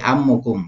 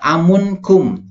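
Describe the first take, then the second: First: No n sound comes before the ending kum. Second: An n sound comes before the ending kum. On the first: The speaker calls it right. "ammun menjadi ammukum" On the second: The speaker calls it wrong. "bukan amunkum. ... itu keliru ya"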